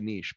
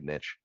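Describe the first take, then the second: First: It is said with a French-style pronunciation. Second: It is said with an anglicized English pronunciation. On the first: This is how most people say it. "most people say niche" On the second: The speaker deliberately makes the word English. "I'm just gonna anglicize the shit out of this word"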